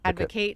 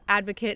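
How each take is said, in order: First: It is pronounced the way the verb is. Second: It is pronounced the way the noun is. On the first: It names the action of supporting something. "Advocate is the verb" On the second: It names a person who supports something. "advocate is the noun"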